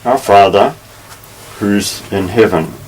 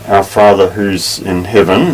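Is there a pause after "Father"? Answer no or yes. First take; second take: yes; no. First: There is a pause after Father. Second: It runs on with no pause after Father.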